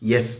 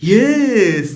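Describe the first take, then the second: First: It is said plainly and naturally. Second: It is drawn out in a dramatic, overacted way.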